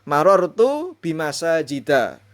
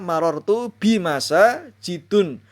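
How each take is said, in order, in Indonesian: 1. Kata terakhir berakhiran a biasa. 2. Kata terakhir berakhiran un. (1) "ini penting" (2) "Tidak boleh dibaca"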